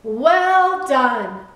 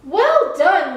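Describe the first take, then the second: First: Loud, drawn-out congratulation; emphatic, lingering approval; proud praise. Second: High, loud congratulation; delighted, emphatic approval; hearty praise. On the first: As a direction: repeat the praise with weight, pitch falling. Keeper repeats praise, drawn out. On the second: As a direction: praise brightly, pitch jumping up. Keeper praises the lighthouse. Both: A narrator's reading.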